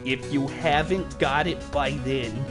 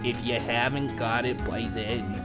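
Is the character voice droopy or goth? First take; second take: droopy; droopy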